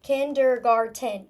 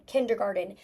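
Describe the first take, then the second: First: KINDERGARTEN stretched slowly into four distinct syllables. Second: Said in the usual way. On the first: Shown as a demonstration. Teacher checking no syllable was forgotten, syllable by syllable. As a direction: chop KINDERGARTEN up, each syllable clear. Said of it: "when I'm stretching through it". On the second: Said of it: "go back and reread what I spelled".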